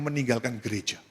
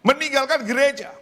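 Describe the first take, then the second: First: Said in the usual way. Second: "Meninggalkan gereja" pitched high and forceful; high, ringing emphasis on "Meninggalkan gereja"; emphatic repeat. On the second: Real, not acted. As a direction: hammer out "Meninggalkan gereja" in a raised voice.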